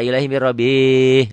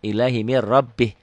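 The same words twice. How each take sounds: First: The final sound is lengthened and drawn out. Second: The final sound is short and clipped. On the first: The speaker calls it wrong. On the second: The speaker calls it right.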